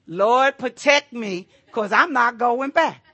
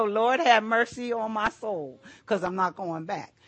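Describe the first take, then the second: First: Loud stubborn plea to the Lord. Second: Said in the usual way. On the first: Retold or imitated. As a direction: beg loudly and refuse to budge. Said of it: "I jumped to the mercy side of God". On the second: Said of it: "I go".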